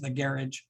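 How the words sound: It is said in an Irish accent.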